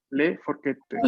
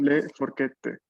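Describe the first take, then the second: First: Le forchette with the double T in forchette clearly held; teacher stressing the double T in forchette. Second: Le forchette said slowly with a long held double T; teacher modelling le forchette for students; slow model. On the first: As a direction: lean on the TT of forchette. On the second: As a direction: hold the TT in forchette. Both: Shown as a demonstration. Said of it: "atención a la doble T aquí".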